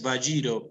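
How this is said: The name is said the Argentine way. This is how people in Argentina say it. "in Argentina is Bajiro"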